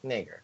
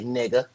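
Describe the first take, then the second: First: It is said crisply with a formal ending. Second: It is said loosely with a relaxed ending.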